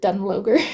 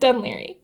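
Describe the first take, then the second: First: The name is sounded out as it is spelled. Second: The name is not sounded out as spelled. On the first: The speaker calls it wrong. "which is spelled like I thought you pronounced it Dunloger. You do not" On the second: The speaker calls it right. "It's Dún Laoghaire"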